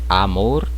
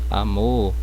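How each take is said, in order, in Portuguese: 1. A vogal A é bem aberta. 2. A vogal A é mais fechada. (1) "No espanhol é mais aberta" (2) "é mais fechada"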